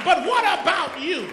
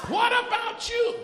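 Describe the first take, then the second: First: Loud challenge, falling at the end; preaching challenge. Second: Loud and pitched higher on the repeat; higher preaching challenge. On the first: Pastor confronting the church, loud challenge. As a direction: drive the question home at the crowd. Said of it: "repeated challenge". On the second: Pastor pressing the church again, higher challenge. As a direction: lift the repeat up and press harder. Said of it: "repeated challenge, higher". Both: Acted.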